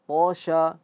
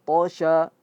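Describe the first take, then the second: The two takes are said the same way.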